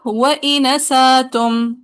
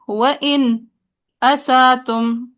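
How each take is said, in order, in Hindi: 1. स्वर आगे चला जाता है, कोई ग्लोटल स्टॉप नहीं। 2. एक छोटा सा मौन विराम शब्दों को अलग करता है। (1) "साकुल मफसूल पे नकल हरका" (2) "फिर सकता"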